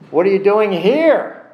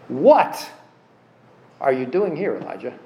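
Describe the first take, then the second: First: The word "here" is stressed. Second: The word "what" is stressed.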